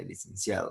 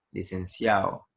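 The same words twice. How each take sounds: First: Said in the usual way. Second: "licenciado" said as "licenciao", with no d before the final o; dropped d. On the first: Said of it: "en vez de licenciado". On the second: Shown as a demonstration. Teacher recalling how school classmates said "licenciado". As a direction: let the d of "licenciado" vanish. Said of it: "decíamos licenciado en vez de licenciado".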